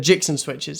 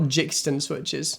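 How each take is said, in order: First: The name is said without a t sound. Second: The name is said with a t sound. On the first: The speaker calls it right. "The Jixon switches" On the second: The speaker calls it wrong. "not Jixton switches"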